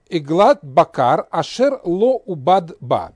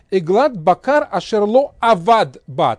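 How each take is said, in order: First: The verb is said with u: ubad. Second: The verb is said with a: avad. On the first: "я прочитал с согласовками" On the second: "по правилам, скажем так, грамматики, надо было прочитать чуть-чуть по-другому"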